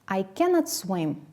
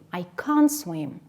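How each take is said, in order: First: The negative is said as full two-syllable cannot. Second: The negative is said as one-syllable contraction can't. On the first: "So the full form is cannot" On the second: "Or if we use the contraction"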